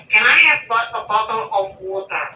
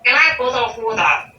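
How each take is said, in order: First: Word-by-word request, softening towards WATER with its R; careful full pronunciation. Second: Quick, run-together request, WATER as "wo-tah"; Australian-style pronunciation. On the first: Showing learners the alternative, careful words and full WATER. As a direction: separate each word, sound the R in WATER. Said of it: "Instead of". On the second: Teacher showing learned Australian habit, quick "wo-tah" for WATER. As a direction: rattle it off, dropping the R in WATER. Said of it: "that's the way I s". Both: Shown as a demonstration.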